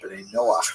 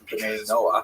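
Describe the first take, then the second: First: The last word ends in a throaty sound. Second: The last word ends in a plain vowel.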